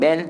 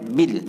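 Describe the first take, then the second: First: The syllable is said with an 'e' vowel. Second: The syllable is said with an 'i' vowel. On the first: The speaker calls it wrong. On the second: The speaker calls it right.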